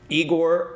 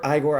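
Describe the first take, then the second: First: Igor with a long EE opening; Igor as EE-gor. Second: Igor opening on an EYE sound; Igor as EYE-gor. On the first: Host unsure of a character's name, Igor said EE-gor. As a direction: say Igor starting like "eager". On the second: Host correcting a character's name, Igor said EYE-gor. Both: Shown as a demonstration. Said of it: "I still say it wrong".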